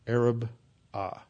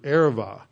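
First: The middle consonant sounds like a B. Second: The middle consonant sounds like a V. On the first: "it is usually pronounced today the Araba" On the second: "it's a soft B, so it's pronounced like a V"

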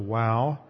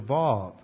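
First: The word begins with a W sound. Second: The word begins with a V sound. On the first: "I think a lot of students pronounce it as a wow" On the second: "pronouncing the W as if it's a V"

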